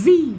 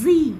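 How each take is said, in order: No difference in how they are said.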